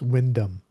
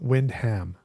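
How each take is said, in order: First: The name is said the British way. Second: The name is said in a non-British way. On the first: The speaker calls it right. "It's Wyndham" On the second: The speaker calls it wrong. "that's not how it's pronounced in, in Britain"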